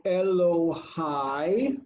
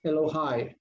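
First: Elohai very slowly, e-lo-haaai; careful pronunciation. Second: Said in the usual way. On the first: Shown as a demonstration. Teacher showing "my God" with its ending, Elohai said very slowly. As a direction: drag out each syllable of Elohai, longest on hai. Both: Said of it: "you add the endings".

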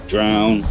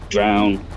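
Both takes have the same delivery.

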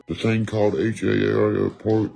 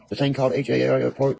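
First: Slow, altered voice spelling out "H A R P"; slow spelled-out emphasis. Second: Said in the usual way. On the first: Shown as a demonstration. Telling viewers about weather control, slowly spelling "H A R P" ominously. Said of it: "slow repeated take". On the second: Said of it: "first take of repeat".

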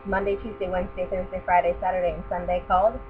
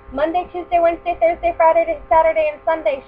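First: Said in the usual way. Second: High, loud call across the house; mother calling her children home, loud. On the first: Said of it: "plain narration of the names". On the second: Acted. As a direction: call the children's names from afar. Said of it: "she called".

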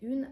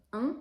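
First: Masculine article misread as UNE, "ün"; wrong reading "ün". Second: UN as a short nasal vowel, no ü; correct nasal UN. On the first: Teacher showing how not to read the article, "ün" UNE. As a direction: say UNE with a rounded ü and a sounded N. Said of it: "Ви не читаєте як". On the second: Teacher correcting the masculine article, nasal UN. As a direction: say UN nasally, without a full N. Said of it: "а просто". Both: Shown as a demonstration.

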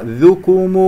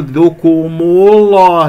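First: Careful ذوكم without any heaviness; thin letters. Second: Loud, slow ذوكم الله, wrongly heavy throughout; faulty heavy letters. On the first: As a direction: keep ذ, ك and م light in ذوكم. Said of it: "مرققة". (ترقيق ذوكم) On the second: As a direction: thicken ك and م in ذوكم الله along with the ل. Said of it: "لا تقول". (تفخيم الكاف والميم في ذوكم الله خطأً) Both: Shown as a demonstration.

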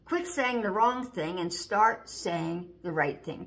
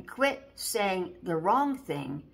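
First: Said in the usual way. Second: Quit saying the wrong thing slowed right down; a slow, emphatic warning; slow, stressed rebuke. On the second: Shown as a demonstration. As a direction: lean on each word of "Quit saying the wrong thing" slowly.

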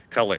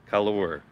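First: Said in the usual way. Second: "color" ending in a full "or"; "color" read literally, like the spelling colour; pronounced as spelled. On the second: Shown as a demonstration. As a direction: sound out "color" as "coll-or". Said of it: "the spelling different".

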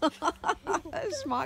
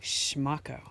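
First: "Schmacko" said through a laugh, higher; "Schmacko" giggled out playfully. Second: "Schmacko" said slowly and low, every sound clear; "Schmacko" spoken carefully for a child to copy; teaching a word. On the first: Real, not acted. Mom laughing at the word. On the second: Shown as a demonstration.

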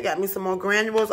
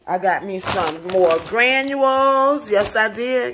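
First: Said in the usual way. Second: Proud excited. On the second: Real, not acted. Proudly showing purchase.

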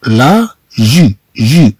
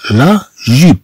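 First: لا جي-، جيب drawn out slowly, syllable after syllable. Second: Said in the usual way. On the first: Shown as a demonstration. Teacher slowly sounding out a new word for learners. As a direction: stretch جيب out for the class. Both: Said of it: "ثم عندنا".

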